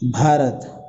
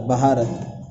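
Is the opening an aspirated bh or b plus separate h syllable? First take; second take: aspirated bh; separate h. First: It starts with one aspirated bh sound. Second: It starts with b, a vowel, then h. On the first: The speaker calls it right. "ऐसे लिखेंगे भारत" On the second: The speaker calls it wrong. "ये है के साथ तो ये बहारत हो जाता"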